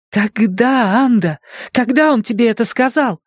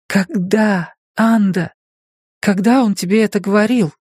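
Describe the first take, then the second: First: Higher, pressing harder; urgent questioning. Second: Higher, pressing; urgent questioning. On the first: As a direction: demand an answer again, shaking. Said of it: "Лизе хотелось трясти её". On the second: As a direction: demand an answer. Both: A narrator's reading.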